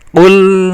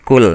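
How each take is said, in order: First: It begins with a deep back q sound. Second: It begins with a plain front k sound. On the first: The speaker calls it right. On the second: The speaker calls it wrong.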